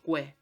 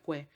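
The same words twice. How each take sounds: First: "que" as plain ke, silent U; the everyday Spanish "que"; Spanish pronunciation. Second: "que" said kwe, the U sounded; Latin pronunciation. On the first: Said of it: "yo no digo que". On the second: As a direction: Latin "que" with a clear W glide. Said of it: "en latín diría que". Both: Shown as a demonstration.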